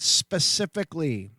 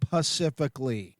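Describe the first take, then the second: First: The word begins with 'spe'. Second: The word begins with 'pa'. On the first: The speaker calls it right. "you say it specifically" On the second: The speaker calls it wrong. "not pacifically, idiots"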